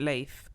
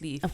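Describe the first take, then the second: First: The vowel differs from the vowel in Keith. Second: The vowel matches the vowel in Keith. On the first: The speaker calls it wrong. "I was pronouncing it Leif" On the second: The speaker calls it right. "but it's Leaf"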